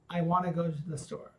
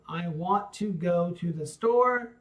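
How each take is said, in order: First: The words flow together in one smooth run. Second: The words are spoken separately and choppily.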